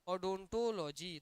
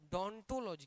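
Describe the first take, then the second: First: The word begins with an 'o' sound. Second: The word begins directly with a 'd' sound. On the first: The speaker calls it wrong. "तो इसको ओ मत पढ़िए" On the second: The speaker calls it right. "ओ silent है यहाँ"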